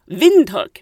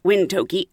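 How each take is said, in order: First: The name is said the local way. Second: The name is said as it is spelled. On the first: The speaker calls it right. "what I found out is Windhoek" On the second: The speaker calls it wrong. "not Windhoek"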